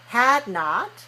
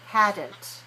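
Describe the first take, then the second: First: It is said as two separate full words. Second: It is said as one contracted word.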